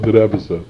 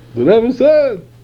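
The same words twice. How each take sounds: First: It sounds weary and reluctant. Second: It sounds excited and enthusiastic. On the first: The instruction feels like an unpleasant obligation. The speaker calls it wrong. "greeted as a burden" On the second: The instruction is welcomed as a source of joy. The speaker calls it right. "it's greeted with enthusiasm and excitement"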